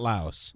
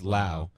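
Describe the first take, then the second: First: The final S sound is pronounced. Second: The final S sound is left silent. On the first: The speaker calls it wrong. "So it's not Laos" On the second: The speaker calls it right. "The S is silent?"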